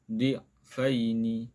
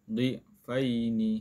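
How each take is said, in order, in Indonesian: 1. Vokalnya tetap pendek dan mengalir. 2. Vokalnya tetap pendek dan mengalir.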